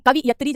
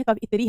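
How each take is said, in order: First: कवियत्री said "kavi-yatree"; कवियत्री mispronounced as "kavi-yatree"; wrong vowel order. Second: कवियत्री said "kava-yitree"; कवियत्री corrected to "kavayitree"; correct vowel order. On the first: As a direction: say कवियत्री with i before the y. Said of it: "जैसा कोई शब्द नहीं है". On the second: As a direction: say कवियत्री with i after the y. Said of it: "कवियत्री है". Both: Shown as a demonstration.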